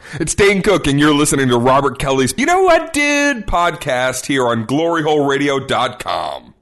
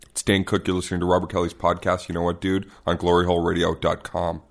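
First: It is said with normal, lively energy. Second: It is said flatly with no energy.

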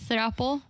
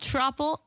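First: The word begins with a 'th' sound. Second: The word begins with a plain 't' sound. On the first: The speaker calls it right. "It's THR" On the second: The speaker calls it wrong. "It's not throuple"

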